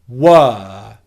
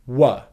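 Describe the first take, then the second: First: The vowel is a full, held 'er' sound. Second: The vowel is a short, weak schwa. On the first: This is the strong form, used when the word is stressed. "very simply hold the er vowel sound" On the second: This is the weak form, used only when unstressed. "coming out of it into a schwa sound"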